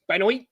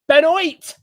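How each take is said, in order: First: The name is said calmly. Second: The name is shouted like a parent.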